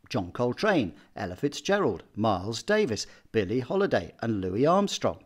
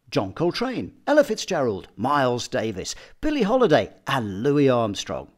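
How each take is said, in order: First: Every name has the same emphasis and speed. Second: Each name has a different emphasis and speed. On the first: The speaker calls it wrong. "it sounds boring and repetitive" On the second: The speaker calls it right. "I've just varied it enough to get it to flow"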